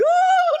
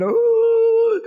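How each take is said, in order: First: Very high, loud imitated bawling; louder mock wail. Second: Loud, high imitated crying; mock wail. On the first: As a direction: burst into exaggerated harder crying. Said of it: "lebih keras lagi". (tiruan tangisan makin keras dan melengking) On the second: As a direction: wail like someone who cannot stop crying. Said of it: "orang kalau sudah nangis". (tiruan tangisan keras melengking)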